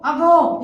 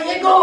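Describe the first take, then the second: First: "ago" with an open first vowel, a-go; correct pronunciation. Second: "ego" with an "e" first vowel, ay-go; wrong pronunciation. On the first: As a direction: say "ago" as अगो, starting on अ. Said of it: "तीसरा क्या पढ़ना है?". ("ago" का सही उच्चारण, अ से शुरू) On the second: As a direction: mispronounce it as "ego", starting on ए. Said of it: "ego नहीं पढ़ना है". ("ego" वाला गलत उच्चारण, ए से शुरू) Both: Shown as a demonstration.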